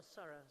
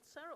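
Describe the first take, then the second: First: "Sarah" said SAH-ruh; first syllable of "Sarah" like "ah"; Sarah with an "ah" vowel. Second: "Sarah" said SAIR-uh; first syllable of "Sarah" like "air"; Sarah with an "air" vowel. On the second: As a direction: say "Sarah" to rhyme with Clara as in "air-uh". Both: Shown as a demonstration. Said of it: "is it Sarah or Sarah".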